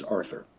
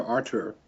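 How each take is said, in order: First: Arthur said with a soft English th, "Ar-thur". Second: Arthur said as "Artur", hard T and no th sound. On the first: Explaining the added H, Arthur said with th. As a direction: give Arthur a clear th sound. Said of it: "he added the H to his first name". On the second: Explaining the old spelling of the name, Arthur said "Ar-tur". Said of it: "no longer Arthur". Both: Shown as a demonstration.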